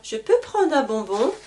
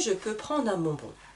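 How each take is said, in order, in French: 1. L'intonation monte à la fin de la question. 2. L'intonation baisse à la fin de la question. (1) "Et là, l'intonation monte" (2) "Voyez, l'intonation n'est pas la même"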